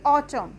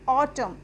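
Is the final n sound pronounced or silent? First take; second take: silent; silent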